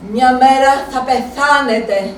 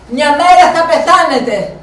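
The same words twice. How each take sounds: First: Slow, deliberate «μέρα» stressed; slow brooding thought. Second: Louder, «μέρα» hit hard then falling; louder grim certainty. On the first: Inner thought, said slowly. (αργά, στοχαστικά, με έμφαση στο «μέρα») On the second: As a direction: insist on it, a grim promise. Inner thought, said again louder. (πιο δυνατά, βέβαιη απειλή, τονίζοντας το «μέρα») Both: Retold or imitated.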